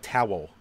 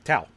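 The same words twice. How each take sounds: First: It is said as two syllables, standard style. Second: It is said as one syllable, Philly style.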